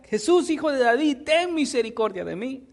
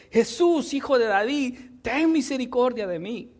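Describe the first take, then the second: First: Insistent call, opening high; imitated louder cry. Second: Higher-pitched pleading call; imitated crying out. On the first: Blind man persists despite being hushed, imitated louder cry. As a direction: keep calling as the persistent beggar, mildly raised. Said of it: "él seguía y hablaba más fuerte". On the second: Blind man calls to Jesus for mercy, imitated crying out. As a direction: call out as the blind beggar, mildly raised. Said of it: "él comenzó a dar voces diciendo".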